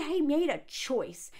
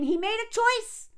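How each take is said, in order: First: Said in the usual way. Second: "he made a choice" pitched high, insistent; "choice" hit high and hard, indignant; indignant emphasis. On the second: Real, not acted. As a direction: drive home "he made a choice" in a raised, high voice. Repeats the point more indignantly.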